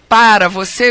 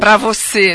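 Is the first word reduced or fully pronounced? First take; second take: fully pronounced; reduced. First: The first word is said with both syllables. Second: The first word is shortened to one syllable.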